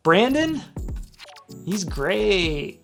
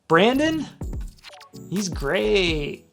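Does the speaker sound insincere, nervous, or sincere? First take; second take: insincere; insincere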